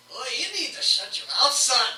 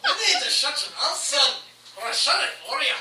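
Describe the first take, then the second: First: High, loud tough-guy taunt; tough gnome. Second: High, loud, fast laughing threat; tough gnome threat. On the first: Gnome turning on the fighter, loud threat. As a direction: shut him down like a street tough. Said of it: "is like". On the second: Gnome threatening the fighter, laughing loud taunt. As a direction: threaten him through laughter. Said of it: "S0 repeats quote". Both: Acted.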